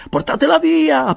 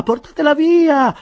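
First: Much higher and louder panicked cry; frantic shout. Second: Slow, much higher and louder desperate cry; slower frantic shout. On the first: Winkle frantically shouting to the bearers, high panicked yell. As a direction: yell for them to take it away. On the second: Winkle repeating his plea to the bearers, slower desperate yell. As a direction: drag out the panicked plea. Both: A narrator's reading. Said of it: "gridava mister Winkle".

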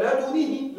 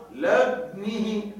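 First: "لدنه" with a full damma on the dal, said higher; alternative pronunciation demo. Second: "لدنه" drawn out with a silent dal rounded toward damma; slow recitation demo. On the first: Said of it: "لقلنا". ("لدنه" بضم الدال) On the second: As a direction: stretch "لدنه" with ishmam on the dal. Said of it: "وردت بإسكان الدال مع إشمامها الضم". ("لدنه" بإسكان الدال مع الإشمام ببطء) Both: Shown as a demonstration.

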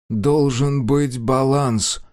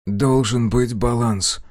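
First: Slow, eerie detached voice; otherworldly voice. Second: Strange otherworldly voice. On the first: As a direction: speak as if possessed. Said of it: "тем же чужим голосом". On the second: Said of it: "Голос прозвучал странно". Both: A narrator's reading.

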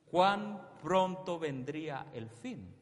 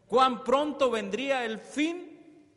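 First: Said in the usual way. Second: High, loud and slow, with a rising "cuán"; preached question. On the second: Shown as a demonstration. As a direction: proclaim it to the whole church. (pregunta proclamada, lenta y fuerte)

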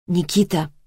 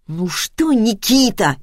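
First: Said in the usual way. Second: Mock mother's way of saying Никита; mocking mimicry. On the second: A narrator's reading. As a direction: sullen son throwing his name back mockingly. (передразнивая мать) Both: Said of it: "передразнил её сын".

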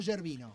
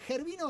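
First: GERVINO with a soft "zh" start, as in Giordano; soft Italian G. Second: GERVINO with a raspy Spanish jota, like "Hervino"; jota at the start. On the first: Host checking the guest's surname, GERVINO with soft Italian G. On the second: Host checking the guest's surname, GERVINO with a Spanish jota. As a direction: say GERVINO with a throaty Spanish J sound first. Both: Shown as a demonstration. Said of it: "Gervino, como Giordano".

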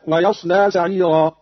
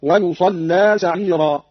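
First: Said in the usual way. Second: ويصلى recited as "wa-yusallaa"; damma, fatha, doubled lam. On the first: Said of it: "قرأ قالون بضم الياء". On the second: Shown as a demonstration. Teacher showing Qalun's reading, ويصلى as "yusallaa". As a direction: slowly say ويصلى with u, open ص and held double ل. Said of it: "بضم الياء وفتح الصاد وتشديد اللام".

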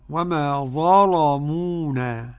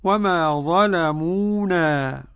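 First: "وما ظلمونا" drawn out, ل heavy and dark; thickened lam. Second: Said in the usual way. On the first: Shown as a demonstration. Teacher demonstrates Warsh's reading, heavy ل in "وما ظلمونا". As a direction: recite "ظلمونا" slowly with a velarized ل. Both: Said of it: "بتغليظ اللام".

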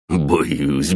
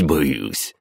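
First: Snorting mock fear, rising at the end. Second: Falling, dismissive "боюсь"; mock fear. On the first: Bully mocks his sister's threat with a rising fake-scared "Боюсь". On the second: Bully sneers at his sister with a falling, scornful "боюсь". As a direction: let the fake "боюсь" drop flat and scornful. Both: A narrator's reading. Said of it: "фыркнул Бас".

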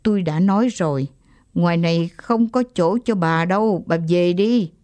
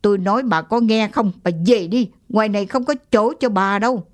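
First: Stern, gritted. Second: Insistent, rushing the last line; mild angry repeat to the old woman; angry, louder. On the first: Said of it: "gằn giọng". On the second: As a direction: snap it out, fed up. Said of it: "cục giận trong ông lại trào lên". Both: Acted.

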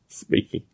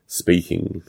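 First: Breathy laugh through the word "Speaking"; "Speaking" said on a soft laugh. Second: Said in the usual way. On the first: Real, not acted. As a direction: chuckle out "Speaking" under the breath.

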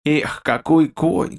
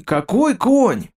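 First: Slow, savoring какой конь; king admiring the horse, slow and pleased; relishing sigh. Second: King admiring the horse, slow rising delight; delighted exclaim. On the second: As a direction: burst out какой конь in delight. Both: A narrator's reading. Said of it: "сказал с удовольствием".

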